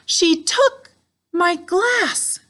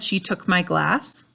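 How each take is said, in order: First: It is said with strong, excited emotion. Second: It is said in a calm, neutral way. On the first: It is an exclamation. "I was using my voice to try and express strong emotion" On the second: It is a simple statement. "it would have just had a period"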